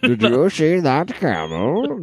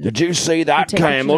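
First: It is said in an imitation of a movie villain. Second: It is said in a put-on Australian accent. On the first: "That's my Bane" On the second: "That was my Australian accent"

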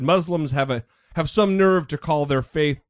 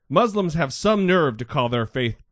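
First: It is read in a plain, neutral tone. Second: It is read in a sarcastic, snarky tone.

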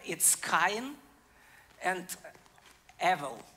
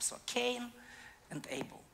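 First: The names are pronounced with Hebrew sounds. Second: The names are pronounced with English sounds. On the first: "In Hebrew" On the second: "So I will pronounce that in English type"

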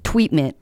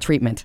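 First: The r is said like a w. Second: The r is said as a clear r.

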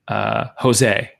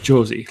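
First: The name is said the Argentinian way. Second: The name is said a non-Argentinian way. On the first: The speaker calls it wrong. "I hate when people call me Jose. He was like, I'm not Argentinian" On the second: The speaker calls it right. "It's Josie"

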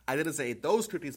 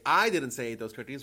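First: The word those is stressed. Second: The first word, I, is stressed. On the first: The speaker ate other cookies. "but maybe other ones" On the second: Someone else said it. "someone else said it"

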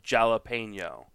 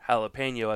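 First: The word begins with a J sound. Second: The word begins with an H-like sound. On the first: The speaker calls it wrong. "as opposed to jalapeno" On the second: The speaker calls it right. "a jalapeno is pronounced jalapeno"

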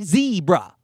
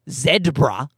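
First: The first syllable sounds like 'zee'. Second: The first syllable sounds like 'zed'. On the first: The speaker calls it wrong. "It sounds like Z-E-E" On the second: The speaker calls it right. "It's not zebra"

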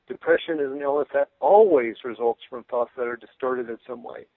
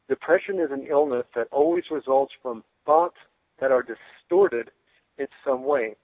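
First: The word always is given strong emphasis. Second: The word always gets no special emphasis.

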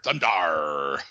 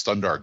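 First: The final R is drawn out like a pirate. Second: The final R is plain and not stretched. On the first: The speaker calls it right. "Kind of like a pirate" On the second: The speaker calls it wrong. "I'm not sure you're pronouncing that right"

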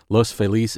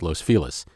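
First: The name is said in its formal pronunciation. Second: The name is said in its local pronunciation. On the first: This is the technically correct form. "technically the correct way to say it" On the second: This is the form in common local usage. "in general usage around L.A., the neighborhood is known as Los Feliz"

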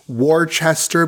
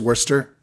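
First: Every written letter of the word is pronounced. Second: Some written letters of the word are dropped.

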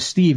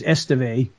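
First: The name starts directly with the s sound. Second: The name starts with an added e vowel sound. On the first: "instead of Steve" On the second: "it was Esteve"

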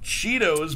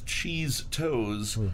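First: The name is said as cheetos. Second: The name is said as cheese toes. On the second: "but as cheese toes"

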